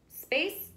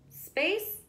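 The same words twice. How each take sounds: Both takes have the same delivery.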